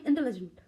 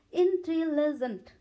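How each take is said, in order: First: Said in the usual way. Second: इंटेलिजेंट sounded out slowly in parts, in-te-li-jent, loud and high; teacher splitting इंटेलिजेंट into clear, emphatic parts; broken into syllables. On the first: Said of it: "इसे हम लोग एक बार में". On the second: Shown as a demonstration. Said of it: "कितने parts हो गए इसके?".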